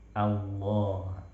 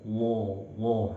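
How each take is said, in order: First: The thick sound stays open and not muffled. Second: The thick sound is closed in and muffled. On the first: The speaker calls it right. "Dia tetap infitah, membuka ya" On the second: The speaker calls it wrong. "Allah sampai mengurung, tidak"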